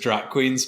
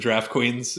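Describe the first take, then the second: First: The first word sounds like 'drop'. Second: The first word sounds like 'draft'. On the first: The speaker calls it wrong. "I was saying it as Drop Queens because it's spelled like drop" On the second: The speaker calls it right. "it was the Draft Queens"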